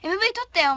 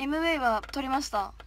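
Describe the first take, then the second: First: MV report blurted loud and high; casual excited. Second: Calmer, polite 撮りました; polite rephrase. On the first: Idol telling fans she shot the MV, excited. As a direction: blurts it out casually, then rephrases politely. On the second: Idol correcting herself to polite speech for fans. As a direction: restate it properly, like a polite idol. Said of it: "も う". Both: Shown as a demonstration.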